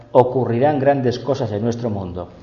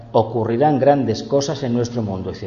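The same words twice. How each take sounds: The two takes are said the same way.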